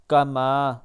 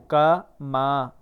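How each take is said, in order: First: کما with ما drawn long; correct کما. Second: کما said short, without drawing out ما; wrong way. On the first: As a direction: stretch the ما in کما. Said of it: "ما کو کھینچنا ہے". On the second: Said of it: "کما نہیں پڑھنا". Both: Shown as a demonstration.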